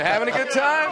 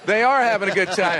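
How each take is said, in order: First: TIME lifted as a higher-pitched question; questioning tune. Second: ARE stressed in a firm statement. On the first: Turns it into a question. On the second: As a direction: confirm it, leaning on the word ARE. Confirms the question just asked. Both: Real, not acted.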